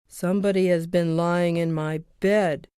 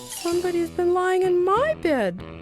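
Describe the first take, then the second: First: It is said in a big, gruff voice. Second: It is said in a soft, gentle voice.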